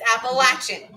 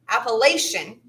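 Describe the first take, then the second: First: The word is said in the locals' way. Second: The word is said in the outsiders' way. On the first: The speaker is from the region. The speaker calls it right. "for those of us who know how to pronounce it right, it's Appalachian" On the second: The speaker is not from the region. The speaker calls it wrong. "depending on where you hail from, some will pronounce it Appalachian. That's wrong"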